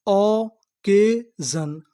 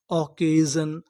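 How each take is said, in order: First: Drawn-out syllables of occasion; sounding out occasion slowly; slow syllable blend. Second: Said in the usual way. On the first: Shown as a demonstration. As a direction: stretch occasion out slowly, sounding out each part. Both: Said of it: "तो पूरी meaning क्या बनी?".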